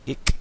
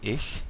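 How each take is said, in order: First: The word ends in a hard k sound. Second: The word ends in a soft ch sound. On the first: This is the northern Low German form. "In Low German, they say ich with a k" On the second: This is the modern standard German form. "the word for I in German is um, ich in modern German"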